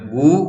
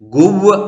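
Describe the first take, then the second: First: The syllable ends on the vowel. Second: The syllable ends with a v sound. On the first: The speaker calls it right. "ഗു എന്ന് മാത്രമേ ഉച്ചരിക്കുകയുള്ളൂ" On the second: The speaker calls it wrong. "ഗുവ് എന്ന് ഉച്ചരിക്കില്ല"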